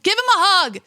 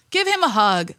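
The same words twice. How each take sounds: First: Emotional plea. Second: Said in the usual way. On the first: Retold or imitated. Distressed watching crying kid.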